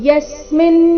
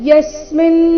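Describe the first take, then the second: Both takes have the same delivery.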